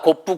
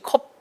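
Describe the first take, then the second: First: It is two syllables with an added vowel. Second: It is one syllable ending in a closed p.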